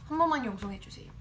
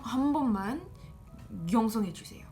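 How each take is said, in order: First: It is said quickly and smoothly, without hesitation. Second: It is said slowly and haltingly, with hesitation. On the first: The speaker calls it right. "you're gonna want to be like" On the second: The speaker calls it wrong. "it's gonna sound more awkward if you say"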